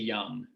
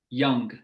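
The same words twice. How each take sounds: First: The word ends with a plain ng sound. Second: The word ends with an audible hard g. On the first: "as opposed to" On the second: "a hard consonant on the end"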